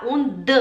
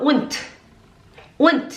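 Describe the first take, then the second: First: "und" ending in a voiced d with a little vowel; wrong voiced ending. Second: "und" ending in a crisp t sound; hard final t. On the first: Teacher shows the mistake, d-ending "und". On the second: Teacher models the simple word, t-ending "und". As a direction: close "und" sharply as "unt". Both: Shown as a demonstration. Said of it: "A gente não fala und".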